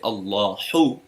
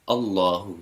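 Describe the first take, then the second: First: The h is a strong, emphasized breathy sound. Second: The h is a light sound like English h. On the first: The speaker calls it wrong. "we don't say Allahu" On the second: The speaker calls it right. "we say Allahu. This is easier"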